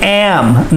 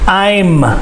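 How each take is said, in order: First: The vowel sounds like the one in 'cat'. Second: The vowel sounds like the one in 'eye'. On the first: The speaker calls it wrong. "I hear them say am" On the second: The speaker calls it right. "I makes the I sound"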